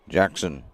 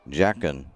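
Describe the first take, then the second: Both takes have the same delivery.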